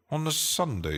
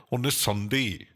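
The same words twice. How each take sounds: First: Said in the usual way. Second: Laughing through the words; laughing mock outrage. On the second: Streamer joking that a friend works Sundays, laughing. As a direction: chuckle it out in disbelief.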